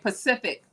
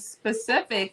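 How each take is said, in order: First: The opening s sound is dropped. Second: The word begins with a clear s sound. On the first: The speaker calls it wrong. "you hear Pacific come out of their mouth" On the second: The speaker calls it right. "instead of saying specific"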